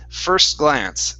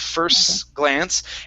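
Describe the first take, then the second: First: The two words run together without stopping. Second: The voice stops on the S before glance. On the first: The speaker calls it right. "So it sounds like this" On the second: The speaker calls it wrong. "we can't stop on that S and say"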